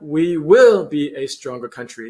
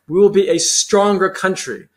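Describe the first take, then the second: First: The words are said flatly without emphasis. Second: Key words are stressed with strong emphasis. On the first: The speaker calls it wrong. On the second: The speaker calls it right. "I stress words like"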